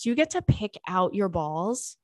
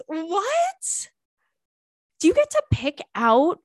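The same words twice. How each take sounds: First: Said in the usual way. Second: High, loud incredulous what; stunned question to the letter writer; shocked squeal. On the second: Real, not acted. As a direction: blurt it out in disbelief.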